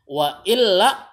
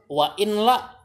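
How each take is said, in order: First: The n merges into a doubled l sound. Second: The n is pronounced separately before la. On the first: The speaker calls it right. "Nunnya dibuang, idgham" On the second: The speaker calls it wrong. "kada pasih ya Allah ucapannya"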